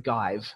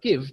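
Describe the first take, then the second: First: The vowel is long, rhyming with 'five'. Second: The vowel is short, as in 'gift'. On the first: The speaker calls it wrong. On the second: The speaker calls it right.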